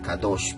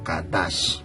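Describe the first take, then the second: First: The second vowel sounds like 'o'. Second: The second vowel sounds like 'a'. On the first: This is the modern Hebrew form. The speaker calls it wrong. "En el hebreo moderno se dice Kadosh" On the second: This is the ancient Hebrew form. The speaker calls it right. "pero en el hebreo anciano Kadash"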